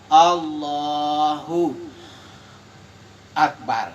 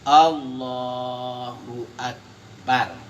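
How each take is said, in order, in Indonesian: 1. Ada jeda dengan napas yang terdengar. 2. Kedua kata itu menyambung tanpa jeda. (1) "itu sudah menghirup napas, itu tidak boleh" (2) "tidak ada berhenti"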